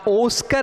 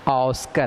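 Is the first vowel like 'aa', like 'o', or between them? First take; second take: o; between. First: The first vowel is a rounded 'o' sound. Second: The first vowel falls between 'aa' and 'o'. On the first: The speaker calls it wrong. "ना ओस्कर है" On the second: The speaker calls it right. "ऑस्कर है ये"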